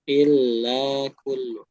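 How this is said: The pitch goes up on the phrase. The speaker calls it wrong. "agak sedikit apa ya? Agak naik gitu ya"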